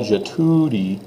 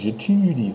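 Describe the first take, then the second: First: J'étudie with an English u; wrong take. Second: J'étudie with a rounded ew u; right take; French u. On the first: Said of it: "So it's not". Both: Shown as a demonstration.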